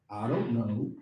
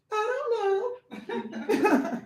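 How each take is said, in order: First: Said in the usual way. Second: High, very slow, drawn-out "I don't know" with a laugh; whiny mock shrug. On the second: Shown as a demonstration. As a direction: stretch "don't" out high like a clueless excuse. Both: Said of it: "Oh, I gotta say it like".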